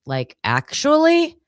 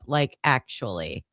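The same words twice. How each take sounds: First: "Like, actually?" much higher and louder with a big rise; disbelieving question. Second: Said in the usual way. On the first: Retold or imitated. Friend texting in shock, loud disbelieving question. Reading a friend's text aloud.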